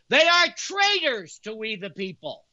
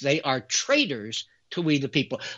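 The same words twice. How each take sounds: First: It is said with heavier, stronger emphasis. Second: It is said with ordinary, plain emphasis.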